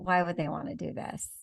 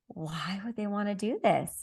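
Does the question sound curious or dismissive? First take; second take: dismissive; curious. First: The question sounds doubtful and dismissive. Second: The question sounds open and genuinely curious. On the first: Nobody would really want this. The speaker calls it wrong. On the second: There are many good reasons to want this. The speaker calls it right.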